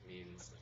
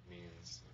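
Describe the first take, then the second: Both takes have the same delivery.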